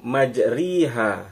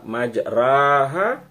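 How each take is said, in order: First: The vowel after r sounds like i. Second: The vowel after r sounds like a. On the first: "majriha ra-nya kasrah" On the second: "berarti ra-nya fathah ya"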